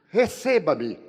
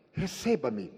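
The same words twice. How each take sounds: First: An urgent, louder plea to be received. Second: Said in the usual way. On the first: Retold or imitated. Pleading with the doctor. (súplica mais forte e insistente)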